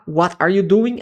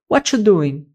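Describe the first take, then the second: First: Every word is pronounced fully and distinctly. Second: The word "are" is dropped and words run together. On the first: The speaker calls it wrong. "o gringo não vai falar" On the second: The speaker calls it right. "é comum que a pessoa vai falar"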